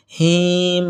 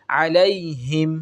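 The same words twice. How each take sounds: First: হিম dragged out, the wrong way; wrong stretched him. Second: আলাইহিম slow with a short হিম; correct short him. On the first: Teacher mimicking students' mistake. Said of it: "এটা ভুল". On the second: Teacher giving the right way after the mistake. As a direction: say আলাইহিম without stretching হিম. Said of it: "হিমে টানবো না". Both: Shown as a demonstration.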